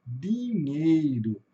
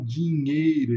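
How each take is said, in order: First: "dinheiro" with a pure D, no J sound; slow "dinheiro" with a light "di"; weaker di. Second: "dinheiro" with D as a J sound; "dinheiro" with a strong "dji"; accentuated di. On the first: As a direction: say "dinheiro" slowly, starting "dee". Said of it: "eles falam o di mais fraquinho". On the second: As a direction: say "dinheiro" starting "djee". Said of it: "esse di mais acentuado". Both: Shown as a demonstration.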